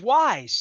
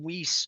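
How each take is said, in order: First: The name ends with a buzzing 'z' sound. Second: The name ends with a hissing 's' sound. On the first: The speaker calls it right. "but it's Wise" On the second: The speaker calls it wrong. "I didn't even know how to pronounce it"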